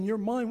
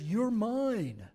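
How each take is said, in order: First: "mine" stressed with a rising tune. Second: "You're" stressed, falling tune. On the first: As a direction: lift "mine" upward, claiming it. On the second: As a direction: lean on "You're" and let it drop. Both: Shown as a demonstration. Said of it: "God is saying".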